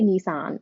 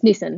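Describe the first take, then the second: First: It is said with an American pronunciation. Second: It is said with an Australian pronunciation. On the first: The speaker calls it wrong. "Americans say Nissan. It's so weird" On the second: The speaker calls it right. "It's Nissan, by the way"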